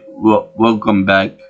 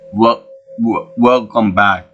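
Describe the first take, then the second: First: It is said in a plain accent. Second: It is said in a Chinese accent.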